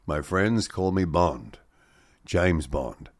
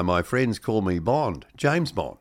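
First: Lightly voiced film line, slow and low; a slow, understated take on the screen-test line; James Bond. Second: Put-on slow line with a light Kiwi accent. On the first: Presenter quoting actor's screen test as James Bond, lightly voiced. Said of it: "uttered the immortal words". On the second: Presenter redoing the Bond line in a mild Kiwi accent. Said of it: "in a more Kiwi accent".

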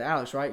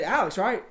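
First: Said in the usual way. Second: Nicely. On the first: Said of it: "I said nicely". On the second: Retold or imitated. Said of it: "You know, I said nicely".

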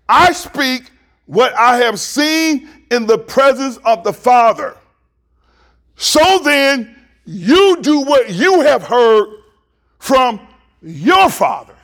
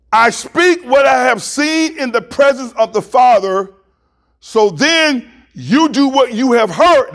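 First: Slow, raised scripture reading with weighted pauses; slow, emphatic re-reading. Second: Raised, measured scripture reading; deliberate reading. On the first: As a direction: read it slowly, leaning on YOU and YOUR. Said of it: "Now let me read it again". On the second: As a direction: read the verse out with higher pitch. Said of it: "I wanna read this slowly". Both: Real, not acted.

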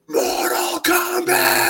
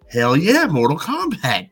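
First: Long, high-pitched commercial-style yell; imitated shout. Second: Mild hyped cheer, a little higher; pumped-up reaction. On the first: Kid in the commercial shouting into an empty street, drawn-out yell. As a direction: stretch it out like a battle cry. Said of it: "he just shouts". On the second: Retold or imitated. Kids reacting to the game commercial, mildly pumped up. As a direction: react like a hyped kid watching TV. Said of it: "We were all just like".

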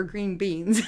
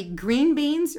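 First: "green beans" with the weight moved to beans; stress off green. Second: "green beans" with GREEN punched; stress on GREEN. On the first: Asking for a poll on her way, green BEANS. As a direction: ease off "green" and land on "beans". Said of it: "I call 'em green beans". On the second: Asking for a poll on his way, GREEN beans. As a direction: hit "green" hard, let beans follow. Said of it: "he emphasizes the fact that they're green". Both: Shown as a demonstration.

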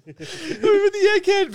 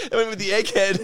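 First: High, loud laughing repeat; squealing laugh. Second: Chuckling through the joke; laughing. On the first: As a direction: crack up while repeating it. Laughing joke, repeated higher. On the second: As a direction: laugh out the punchline. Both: Real, not acted.

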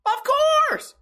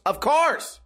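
First: "Of" then a pause before a clipped "course"; drawn-out of course. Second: "Of course" pitched up high on "course"; emphatic of course. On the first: Driving the point home to chat, "Of ... course" split by a pause. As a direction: split "Of ... course" with a beat between. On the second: Insisting he'd tip for a long drive, "Of course" pitched up. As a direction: push "Of course" up high, like it's obvious. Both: Acted.

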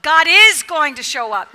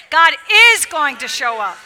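First: Said in the usual way. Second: "God is going to show up" punched loud; with emphasis. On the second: Shown as a demonstration. Preacher leading the congregation, saying it with emphasis. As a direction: hit every word hard, especially "is". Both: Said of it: "Now say it with the emphasis".

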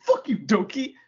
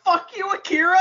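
First: Imitated Italian-accented insult, pitched up; higher-pitched Italian accent imitation; mock Italian accent. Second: High, loud mock-outraged yell; shrieked comic comeback; indignant retort. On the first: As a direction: curse someone out in a put-on Italian accent. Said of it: "in his Italian accent". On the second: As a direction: yell it back in hammed-up outrage. Fan retorts to wrestler's insult.

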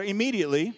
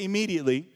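First: Louder call-back. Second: Said in the usual way. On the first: Shown as a demonstration. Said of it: "say a little bit louder". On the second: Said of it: "Everybody say that with me".

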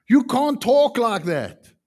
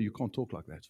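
First: Louder, slower firm telling-off; firm rebuke. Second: Much softer, low repeated rebuke; quiet retelling. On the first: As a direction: set her straight firmly. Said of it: "I just said to her". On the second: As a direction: say it softly as reflection. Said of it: "First time somebody told her". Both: Retold or imitated.

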